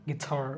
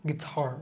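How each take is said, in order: Both takes have the same delivery.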